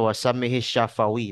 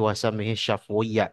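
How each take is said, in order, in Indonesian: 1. Bunyi f diikuti vokal pendek. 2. Bunyi f langsung diikuti w. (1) "jangan dibacanya" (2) "dengan sukun pada fa"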